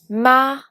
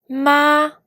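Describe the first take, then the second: First: The syllable carries the second tone. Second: The syllable carries the first tone. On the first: "pour le deuxième ton" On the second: "pour le premier ton"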